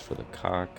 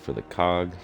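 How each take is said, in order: First: The last word ends with a k-like sound. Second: The last word ends with a clear g sound. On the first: "he pronounces his G's a little differently" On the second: "instead of saying for the cog"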